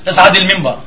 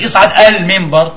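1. الكلمات تتصل بسلاسة دون همزة قطع. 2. تُنطق همزة قطع قبل أل التعريف. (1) "ايش بنقول؟" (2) "مش اصعد المنبر"

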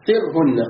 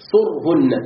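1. الحركة الأولى كسرة. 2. الحركة الأولى ضمة. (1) "قراءة السيوطي فصرهن التي اختارها" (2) "قراءتنا صرهن بضم الصاد"

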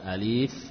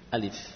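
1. Vokalnya dipanjangkan. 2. Vokalnya dibaca pendek. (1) "Bukan alif" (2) "Kalau alif tidak panjang. Ya, A satu harokat, li juga satu harokat"

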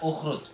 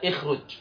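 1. Kata ini diawali dengan vokal u. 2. Kata ini diawali dengan vokal i. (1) "berarti dibaca ukhruj" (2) "Jangan dibaca ikhruj"

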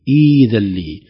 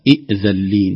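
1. الهمزة الثانية تصبح حرف مد ياء طويلة. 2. الهمزة الثانية همزة قطع واضحة. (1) "نقول ... ائذلي ... الهمزة الثانية تتحول إلى حرف مد" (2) "ولا نقول ائذلي"

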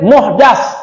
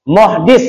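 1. Vokal setelah d adalah a. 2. Vokal setelah d adalah i. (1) "juga diriwayatkan muhdas, berarti isim maf'ul" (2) "yurwa bil kasri dal. Muhdis berarti isim fa'il"

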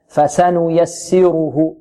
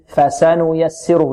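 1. كل حركة قصيرة تُعطى مدّها التام. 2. كل حركة قصيرة تُعطى مدّها التام.

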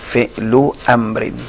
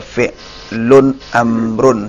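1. Kata pertama diakhiri tanpa bunyi n. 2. Kata pertama diakhiri dengan bunyi n. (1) "Fi'lu amrin itu idhafa" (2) "banyak yang salah baca, dibaca fi'lun amrun, salah"

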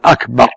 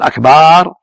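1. الحركة بعد الباء قصيرة. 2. الحركة بعد الباء ممدودة طويلة. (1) "وأكبر لا يمد الباء، يقول أكبر يعني أعظم" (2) "أما إذا قال أكبر هذا جمع كبر كبر طبل، لا يقول أكبر لا يمدها"

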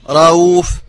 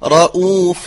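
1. الهمزة مخففة وبالكاد تُسمع. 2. الهمزة مَنطوقة بوضوح وتمييز. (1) "هذا إخفاؤها" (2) "الهمزة مرققة مع تبينها من غير تشديد ولا تسهيل"

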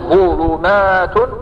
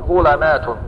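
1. الحركة الثانية ضمة. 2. الحركة الثانية فتحة. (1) "إما أن تتبع العين للفاء" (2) "أو تفتح"

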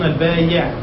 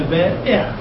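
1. الصوت الأوسط ياء. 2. الصوت الأوسط همزة. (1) "يخطئون فيقولون البايع بالياء تخفيفا هكذا" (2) "ينبغي أن تكون البائع بالهمزة"

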